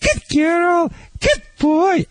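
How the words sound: It is said at a high, happy pitch.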